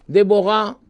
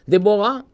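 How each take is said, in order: Both takes have the same delivery.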